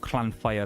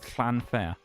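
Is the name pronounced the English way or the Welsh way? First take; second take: Welsh; English. First: It is said with a native Welsh pronunciation. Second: It is said with an anglicized English pronunciation. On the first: "as how actual Welsh people pronounce it" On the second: "I'm just a cheeky English tourist"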